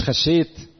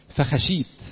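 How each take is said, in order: First: خشيت as colloquial khashsheit, doubled sh; colloquial soundalike. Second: فخشيت with a long ee, single sh; formal verse pronunciation. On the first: Preacher showing the class the mistaken word, colloquial pronunciation. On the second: Preacher quoting Adam's answer to the class, formal pronunciation. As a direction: say فخشيت in formal Arabic, long final vowel. Verse word set against colloquial word. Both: Shown as a demonstration.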